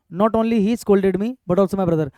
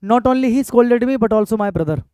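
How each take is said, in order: First: Slow repeated dictation. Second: Very slow, each word drawn out; unhurried board-writing read; slow dictation. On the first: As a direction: read it again slowly for copying. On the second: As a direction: read it out slowly for students to copy. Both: Shown as a demonstration. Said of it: "sentence ठीक है".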